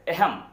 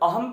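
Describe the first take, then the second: First: The word begins with an 'e' vowel. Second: The word begins with an 'a' vowel. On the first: "Rajasthan प्रांत के जो निवासी हैं वह अहम में ए का उच्चारण करते हैं" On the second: "यहां अहम में अ हम लोग बोलते हैं"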